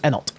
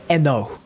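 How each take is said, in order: First: The final T is clearly pronounced. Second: The final T is left silent. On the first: "Personally, I pronounce it as Enot" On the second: "pronounce Enot with a silent T like depot?"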